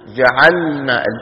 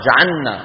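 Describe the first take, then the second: First: The L and N sound separately. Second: The L sound is merged into the N. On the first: The speaker calls it right. "واحرص على السكون في جعلنا، اللام لوحدها والنون لوحدها" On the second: The speaker calls it wrong. "شو صار باللام؟ ما كأنها أدغمت في مين؟ في النوم"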